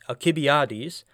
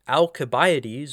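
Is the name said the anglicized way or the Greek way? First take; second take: Greek; anglicized. First: The name has a Greek-style pronunciation. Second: The name has a common anglicized pronunciation. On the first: The speaker calls it right. "the correct way of saying it, which I'll say is Alcibiades" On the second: The speaker calls it wrong. "a guy by the name of Alcibiades"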